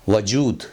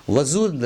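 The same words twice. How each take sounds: First: 'वजूद' with a clear j; correct pronunciation. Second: 'वजूद' with z in place of j; wrong pronunciation. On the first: Teacher gives the proper word, correctly pronounced. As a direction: say 'वजूद' as wa-jood. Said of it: "सही लफ्ज़ है". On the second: Teacher says it is no word, mispronounced. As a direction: put a buzzing z in 'वजूद'. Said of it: "लफ्ज़ नहीं है". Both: Shown as a demonstration.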